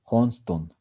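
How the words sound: The name is said with Spanish pronunciation. "in the Spanish pronunciation, this name is Johnston"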